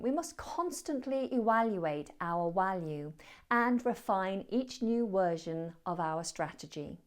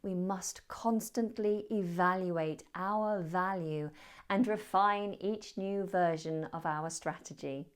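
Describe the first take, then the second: First: Evaluate, value and version start with a W sound. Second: Evaluate, value and version start with a V sound. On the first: The speaker calls it wrong. "There were three" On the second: The speaker calls it right. "let me say it correctly"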